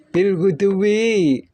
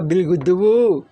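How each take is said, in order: First: The last word ends with an 'i' vowel. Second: The last word ends with a 'u' vowel. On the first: The speaker calls it right. "majrur bil ba" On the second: The speaker calls it wrong. "apalagi bil guduwu, nggak boleh"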